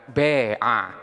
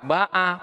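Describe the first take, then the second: First: The first vowel is tilted toward an e sound. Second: The first vowel is an open a sound.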